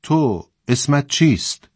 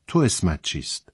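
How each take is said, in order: First: Higher, slow, measured question; commander's questioning. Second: Softer, gently lowered question; friendly, soothing. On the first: Commander questions a nervous conscript, measured and higher. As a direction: put the question slowly, pitched up. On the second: Commander asks the soldier again kindly, soothing and soft. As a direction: ask it softly, putting them at ease. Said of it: "آن صدای دوستانه و آرامبخش را". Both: A narrator's reading.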